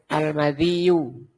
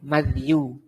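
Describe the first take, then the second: First: The d takes an i vowel, with a doubled y. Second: The d has no vowel after it. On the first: "wa kasri dzal, wa tasdidil ya, dan ya-nya di tasdid" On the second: "bifathil mim, Wasukuni dal, dan dalnya disukun"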